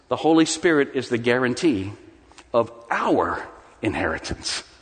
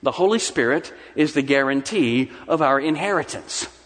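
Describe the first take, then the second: First: The stress falls on the word our. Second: The stress falls on the word inheritance. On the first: We are the ones who are inherited. The speaker calls it right. "see if you hear the difference" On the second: We are guaranteed to inherit something. The speaker calls it wrong. "That's putting the emphasis on the wrong word"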